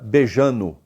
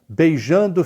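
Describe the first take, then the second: First: The word drops the d, ending in -no. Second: The word ends with a full -ndo sound. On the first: "fica beijando" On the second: "beijando fica"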